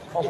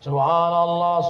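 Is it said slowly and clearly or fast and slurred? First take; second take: fast; slowly. First: It is said fast and slurred. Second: It is said slowly and clearly.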